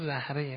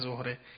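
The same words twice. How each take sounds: First: The word is said with its Arabic pronunciation. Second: The word is said with its Persian pronunciation. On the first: It means blossom or adornment. The speaker calls it right. "یعنی تلفظ این کلمه زهره است. زهر و زهره در کلام عرب" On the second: It is the everyday Persian word. The speaker calls it wrong. "نه اون زهره پارسی که به کار میبریم"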